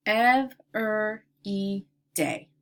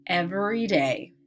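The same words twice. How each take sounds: First: "Every day" in four slow, separate parts; syllable by syllable. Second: Said in the usual way. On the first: Shown as a demonstration. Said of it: "I will give you each word part". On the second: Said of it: "we'll blend the word together".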